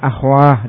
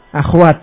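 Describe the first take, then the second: First: The word ends with an h sound. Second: The word ends with a t sound. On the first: This is the pausal form some Arabs use. "dengan ha akhwah diwaqafkan" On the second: This is the original, unpaused form. "Tadinya apa aslinya?"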